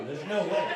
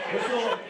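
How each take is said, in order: First: Said in the usual way. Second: Higher and louder, laughing; higher, louder repeat. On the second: Real, not acted. Comic repeating the line to the crowd, higher and laughing. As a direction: push it up a notch in disbelief.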